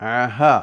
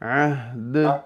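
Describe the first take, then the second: First: A short a vowel follows the h sound. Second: No vowel follows the h sound. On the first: The speaker calls it wrong. "അഹ ഫത്ഹ വന്നു പോയി" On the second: The speaker calls it right. "ഇങ്ങനെ സിമ്പിളായിട്ട് നിർത്തണം"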